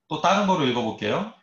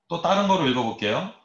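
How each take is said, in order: The two takes are said the same way.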